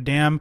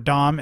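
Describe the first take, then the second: First: The name is said with the vowel of 'dam'. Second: The name is said with the vowel of 'dom'. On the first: The speaker calls it wrong. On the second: The speaker calls it right.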